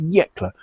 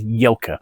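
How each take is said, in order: First: The k sound comes before the l sound. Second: The l sound comes before the k sound. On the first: The speaker calls it right. "the region concerned is Jekla" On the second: The speaker calls it wrong. "pronounced the region as Jelka. I'd managed to transpose two letters there"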